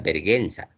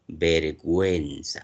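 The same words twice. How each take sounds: First: The u after the g is silent. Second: The u after the g is pronounced. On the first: The speaker calls it wrong. "nadie pronuncia vergüenza" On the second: The speaker calls it right. "Aquí sí está sonando la U y está sonando la E"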